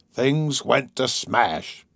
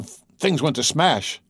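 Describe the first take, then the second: First: Put-on slow, broken-hearted old man; slow, subdued sorrow; quiet, sad. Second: Higher-pitched, stammered outburst; agitated old man telling of disaster; excited. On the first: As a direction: draw it out sadly, the fight gone. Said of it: "he said quietly and sadly". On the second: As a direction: stumble into it, worked up. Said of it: "his voice shook with excitement". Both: A narrator's reading.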